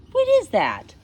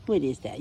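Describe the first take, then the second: First: High, loud coo at the dog; asking the dog about the leaf on its tongue, high and cooing. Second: Said in the usual way. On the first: Real, not acted. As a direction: coo it to the puppy.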